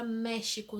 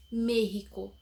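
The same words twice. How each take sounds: First: México said "méshico"; Portuguese X as SH. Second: México said "méhico"; Spanish México with guttural J sound, slightly louder. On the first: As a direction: Brazilian México with sh in the middle. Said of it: "A gente diz México". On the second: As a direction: make the X in México a throaty H. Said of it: "era escrito com J". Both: Shown as a demonstration.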